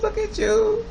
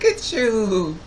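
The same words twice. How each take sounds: First: Very high, squeaky coo, stress on you; squeaky baby talk. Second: Louder, higher cooing at a grown man; gushing baby talk. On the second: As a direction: fawn over him like over a baby. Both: Retold or imitated. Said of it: "I have a bad habit when I see young, young people".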